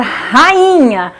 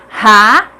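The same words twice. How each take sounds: First: Said in the usual way. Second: "rainha" broken into ra... i... nha, pauses between; syllable by syllable. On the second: Shown as a demonstration. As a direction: sound out "rainha" in three separate syllables. ("rainha" silabado, com pausas: ra... i... nha) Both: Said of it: "Cada uma fica em uma sílaba diferente".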